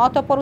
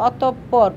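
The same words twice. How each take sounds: First: Said in the usual way. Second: অতঃপর said "otop-por", with a held double p; doubled consonant. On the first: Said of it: "বিসর্গের সাহায্যে ধ্বনিদ্বিত্ব উচ্চারণ বোঝায়". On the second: Shown as a demonstration. Teacher showing visarga doubles the sound, doubled consonant. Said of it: "উচ্চারণ করতে অতঃপর".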